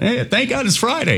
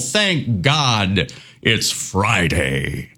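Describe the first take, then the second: First: It is said offhand, casually, without feeling. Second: It is said heartfelt, really meaning it.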